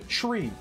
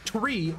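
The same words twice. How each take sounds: First: It begins with a CH-like sound. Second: It begins with a plain T sound. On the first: The speaker calls it right. "you say tree" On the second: The speaker calls it wrong. "You don't say tree"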